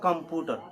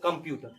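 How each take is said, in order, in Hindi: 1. इस शब्द का रोज़मर्रा का बोलचाल वाला उच्चारण है। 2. इस शब्द का ध्यान से बोला गया मानक उच्चारण है। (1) "आम तौर पे भाषा में कंप्यूटर ही बोल देता है" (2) "सही उच्चारण"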